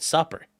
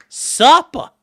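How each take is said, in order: First: Said in the usual way. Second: High, loud "Supper" in mock accent, final r dropped; hammed-up r-less accent on "Supper". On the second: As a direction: call out "Supper" as "suppa" in a put-on accent. Hammed-up repeat of the word.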